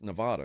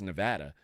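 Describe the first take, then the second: First: The middle vowel sounds like 'ah'. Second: The middle vowel sounds like 'add'. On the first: The speaker is not from there. The speaker calls it wrong. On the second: The speaker is a local. The speaker calls it right.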